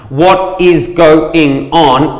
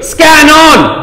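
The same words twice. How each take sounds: First: Very slow, every syllable separate; drawn-out full syllables. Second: "Scan on" run together, high and punchy; two-syllable Aussie contraction. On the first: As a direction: spell out WHAT IS GO-ING ON syllable by syllable. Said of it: "five syllables". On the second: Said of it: "I'll knock that out in two". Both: Shown as a demonstration.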